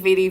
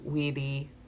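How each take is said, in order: First: The word begins with a V sound. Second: The word begins with a W sound. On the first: "how I've always pronounced it" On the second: "they pronounce the V's as W's"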